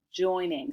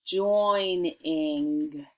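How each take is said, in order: First: Said in the usual way. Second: "joining" stretched into two syllables, join, ing; careful dictation. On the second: Shown as a demonstration. Teacher giving the spelling word, "joining" slow and separated. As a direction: draw out "joining" slowly and evenly, syllable by syllable. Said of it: "so listen, your word is".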